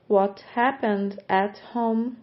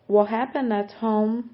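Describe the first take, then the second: First: The phrase is said at a slower pace. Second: The phrase is said at a faster pace.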